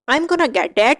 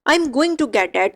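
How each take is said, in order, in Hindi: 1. 'Going to' घटकर 'gonna' हो जाता है। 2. 'Going to' को दो पूरे शब्दों की तरह बोला जाता है।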